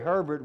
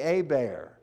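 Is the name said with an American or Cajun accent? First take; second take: American; Cajun. First: It is said with a general American accent. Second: It is said with a South Louisiana Cajun accent.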